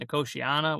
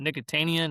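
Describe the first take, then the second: First: The word ends with the sounds 'tiana'. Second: The word ends with the sounds 'tania'. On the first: This is the proper name of the plant. The speaker calls it right. "which is not how you pronounce it" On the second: This is the name used in childhood. The speaker calls it wrong. "We we used to call it Nicotania"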